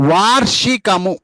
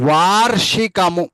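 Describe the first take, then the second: No difference in how they are said.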